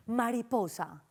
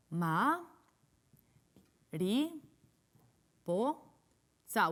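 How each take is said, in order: First: Said in the usual way. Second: "Ma, ri, po, sa" with long pauses between beats; each syllable of "Ma, ri, po, sa" alone; split into syllables. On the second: Shown as a demonstration. Teacher sounding out butterfly, "Ma, ri, po, sa" split. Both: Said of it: "¿Cuántas sílabas tiene?".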